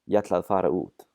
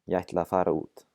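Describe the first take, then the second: The two takes are said the same way.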